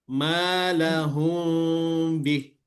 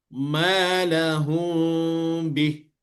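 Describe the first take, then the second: Both takes have the same delivery.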